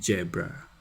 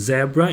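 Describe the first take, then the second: First: The word begins with a j sound. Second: The word begins with a buzzing z sound. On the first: "It often becomes J" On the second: "we have Z, Zen in words, like zebra"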